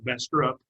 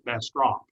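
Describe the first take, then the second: First: The second syllable has an 'uh' vowel, 'trup'. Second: The second syllable rhymes with 'drop', 'trop'. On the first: The speaker calls it wrong. "not Bastrop" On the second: The speaker calls it right. "but Bastrop"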